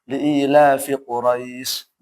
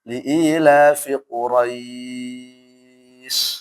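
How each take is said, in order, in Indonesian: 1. Vokal panjang di akhir ditahan sebentar. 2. Vokal panjang di akhir ditahan sangat lama. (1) "boleh dua" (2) "atau enam"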